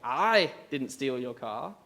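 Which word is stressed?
I. The stress is on the word I.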